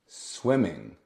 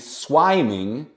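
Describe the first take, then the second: First: The first vowel is short, like in swim. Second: The first vowel is long, like in swine. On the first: The speaker calls it right. "we add an extra M. There you go" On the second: The speaker calls it wrong. "to avoid swiming, this would be swiming"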